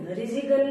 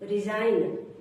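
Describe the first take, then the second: First: A hard g sound is pronounced in the word. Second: No g sound is pronounced in the word. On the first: The speaker calls it wrong. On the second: The speaker calls it right.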